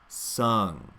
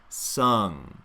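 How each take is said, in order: Both takes have the same delivery.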